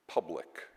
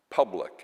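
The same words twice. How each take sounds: First: Said in the usual way. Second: Public hit much louder, a falling stress; emphasized word. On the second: Shown as a demonstration. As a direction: lean hard on the word public. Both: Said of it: "and I emphasize that word".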